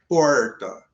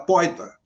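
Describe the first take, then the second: First: The word is said with an r sound. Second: The r is replaced by an i glide. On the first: "não conseguia falar nem porta" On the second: "Era poita. ... esse izinho ... levava"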